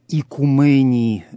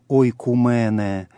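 First: The word starts with a plain 'i' sound. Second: The word starts with an 'oi' diphthong. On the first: This is the later Byzantine pronunciation. "в более позднем византийском произношении" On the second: This is the ancient classical pronunciation. "в древнем классическом произношении"

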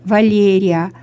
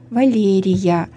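First: The i and a meet with no glide. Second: A y-glide links the i and a. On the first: The speaker calls it wrong. "А ведь мы не говорим Италия, Валерия" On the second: The speaker calls it right. "Мы говорим Италия, Валерия"

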